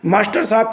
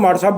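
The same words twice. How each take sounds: First: The phrase is said in its full form. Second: The phrase is said in a shortened form.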